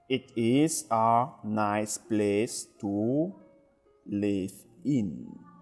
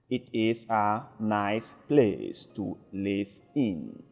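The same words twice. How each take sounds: First: It is read at a slow speed. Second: It is read at a normal speed.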